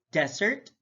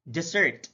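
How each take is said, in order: First: DESert, open DESS, rising; careful demo of DESert; stress on first syllable. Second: DeSERT, falling on SERT; careful demo of deSERT; stress on second syllable. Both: Shown as a demonstration. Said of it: "stress is the verbal emphasis used".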